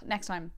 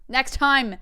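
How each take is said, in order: First: Said in the usual way. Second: Sudden loud, higher outburst; mock frustrated shout. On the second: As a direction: shout it in playful exasperation. Mock outburst at failed impression.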